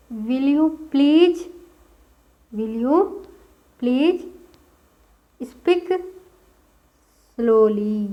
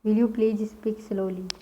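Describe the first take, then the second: First: Broken up word by word, rising on each; teacher assembling the sentence word by word; building the sentence. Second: Whole sentence at a slow steady pace; teacher reading the finished sentence for notes; slow dictation. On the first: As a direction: piece it together word by word. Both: Shown as a demonstration. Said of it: "English में क्या बोला जाता है?".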